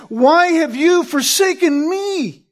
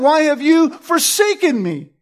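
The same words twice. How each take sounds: First: Slow, higher, landing hard on "me"; the right reading, "me" stressed; emphatic stress on ME. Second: "you" lifted, falling end, "me" left light; a third wrong take, "me" unstressed; wrong stress as a demo. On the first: Preacher to congregation, the correct reading, "me" emphatic. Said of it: "the me is given emphatic placement". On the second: Preacher listing wrong emphases, "you" stressed. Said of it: "It isn't". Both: Shown as a demonstration.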